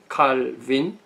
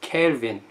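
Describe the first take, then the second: First: The name is said the German way. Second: The name is said the English way. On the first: "독어식 발음이" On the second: "영어식 발음은"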